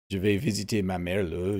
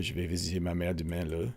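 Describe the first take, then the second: First: Quebec French "le" ending. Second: Quicker, softer Quebec French line ending in a tacked-on "le". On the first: Streamer showing chat the Quebec sentence ending, a light Quebec French demo. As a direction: show the Quebecois habit of tacking "le" onto "Je vais visiter ma mère le". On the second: Streamer giving chat a second Quebec example, quick, soft Quebec French demo. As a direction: rattle off "Je vais visiter ma mère demain le" the Quebec way. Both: Shown as a demonstration. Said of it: "They say le a lot at the end of their sentences".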